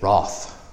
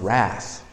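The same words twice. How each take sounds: First: It is said with a British accent. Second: It is said with an American accent.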